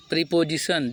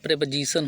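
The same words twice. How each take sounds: First: "प्रीपोजिशन" said pree-po-zition; long ee and full o in "प्रीपोजिशन"; common mispronunciation. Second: "प्रीपोजिशन" said prep-uh-zition; short e and reduced middle vowel in "प्रीपोजिशन"; correct pronunciation. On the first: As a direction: read "प्रीपोजिशन" as pree plus position. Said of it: "जो हम लोग पढ़ते हैं". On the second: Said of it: "लेकिन क्या होता है". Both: Shown as a demonstration.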